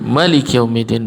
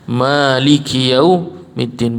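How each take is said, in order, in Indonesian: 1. Huruf vokal pertama pada Maliki dibaca pendek. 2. Huruf vokal pertama pada Maliki dibaca panjang. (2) "lebih memilih yang ada matnya"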